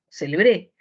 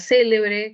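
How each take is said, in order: First: The stress is on the last syllable. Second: The stress is on the first syllable.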